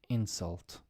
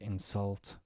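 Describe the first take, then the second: First: The stress is on the first syllable. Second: The stress is on the second syllable. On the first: It is used as a noun. "think of it now as nouns" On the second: It is used as a verb. "to insult"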